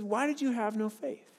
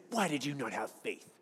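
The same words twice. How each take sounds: First: Gentle question. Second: Low, mocking nagging voice; scolding Jesus. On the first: Retold or imitated. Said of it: "he says". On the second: Pastor mimics the way he used to read Jesus, mocking scold. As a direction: sneer it like a condemning scold. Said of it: "I used to read it like Jesus was saying".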